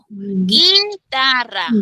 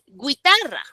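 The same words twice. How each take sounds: First: The u after the g is silent. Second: The u after the g is pronounced. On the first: The speaker calls it right. "guitarra, suena la I" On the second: The speaker calls it wrong. "Tú no dices guitarra"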